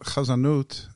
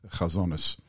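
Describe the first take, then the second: First: It has a Modern Hebrew pronunciation ending in -ut. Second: It has an Ashkenazic pronunciation ending in -is. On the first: "Chazanut is a good term"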